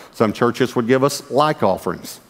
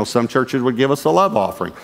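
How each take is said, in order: First: "like" set apart and drawn out slowly; slow down and punch the word "like"; stress on like. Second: Emphasis on "love" in a love offering; stress on love. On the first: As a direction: make "like" the contrasting word. Contrasting like with love offerings. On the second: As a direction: lean on the word "love". Contrasting two kinds of church offering. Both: Shown as a demonstration.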